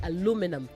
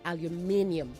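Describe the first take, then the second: First: It is said with four syllables, American style. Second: It is said with five syllables, British style. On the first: "In American English, you say aluminum" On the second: "in British English, you say aluminium"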